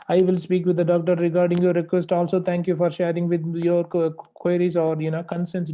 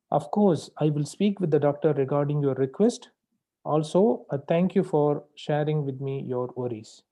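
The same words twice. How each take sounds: First: Rattled off fast without pauses; rushed run-on. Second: Measured, polite and unhurried; calm polite. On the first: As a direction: gabble it all in one breath like a wrong example. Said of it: "You can't speak like this". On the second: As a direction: say it calmly with clear pauses. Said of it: "This is how you need to speak". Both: Shown as a demonstration.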